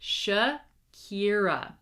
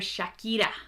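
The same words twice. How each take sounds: First: It is said with English vowels and sounds. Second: It is said with Spanish vowels and sounds. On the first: The speaker calls it right. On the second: The speaker calls it wrong.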